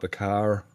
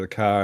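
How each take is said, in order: First: It has an American accent with the final R. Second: It has an Australian accent without the final R.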